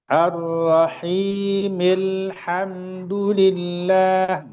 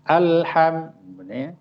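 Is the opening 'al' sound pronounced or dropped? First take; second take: dropped; pronounced. First: The opening hamza is dropped, linked to the previous word. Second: The opening hamza and vowel are clearly pronounced. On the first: The word is joined to the preceding basmalah. "alnya atau hamzah wasalnya itu akan hilang" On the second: The word begins the recitation. "dibaca karena memang dia di awal"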